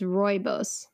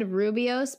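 First: The first syllable sounds like 'roy'. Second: The first syllable sounds like 'roo', not 'roy'. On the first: The speaker calls it right. "now that I stared at it many times, it's rooibos" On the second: The speaker calls it wrong. "I always said rooibos because I put the I in the wrong place"

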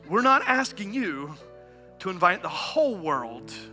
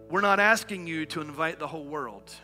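First: The sentence is read in a dramatic, emphatic way. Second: The sentence is read in a plain, ordinary way.

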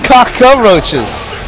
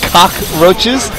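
First: An extra vowel is inserted mid-word. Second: No extra vowel is inserted mid-word. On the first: The speaker calls it wrong. "You pronounce it like a Filipino" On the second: The speaker calls it right. "Without the A in between?"

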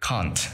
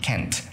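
First: The word is said with a British pronunciation. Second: The word is said with an American pronunciation. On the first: "phát âm theo kiểu can't là kiểu Anh" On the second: "can't là kiểu Mỹ"

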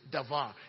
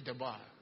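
First: The middle consonant is a v sound. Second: The middle consonant is a b sound. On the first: The speaker calls it right. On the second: The speaker calls it wrong.

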